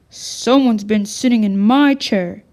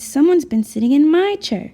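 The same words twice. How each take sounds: First: A big, deep, booming voice. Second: A medium-sized, middle-pitched voice. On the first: "boomed in his great big voice" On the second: "in her medium-sized voice"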